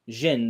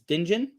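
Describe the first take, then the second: First: The word starts with a J sound, no D. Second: The word starts with a clear D sound. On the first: The speaker calls it right. "The D is silent" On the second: The speaker calls it wrong. "how do you pronounce this?"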